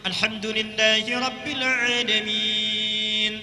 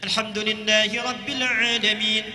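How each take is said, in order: First: It is recited moderately with longer vowel lengths. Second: It is recited quickly with short vowel lengths. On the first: "Dua harakat dijadikan empat harakat, dua detik" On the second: "Hadr itu membaca Quran dijadikan dua harakat panjangnya, cuma satu detik"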